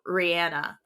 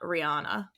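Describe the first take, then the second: First: The name is pronounced the way Barbadians say it. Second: The name is pronounced the common American way. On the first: The speaker calls it right. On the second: The speaker calls it wrong.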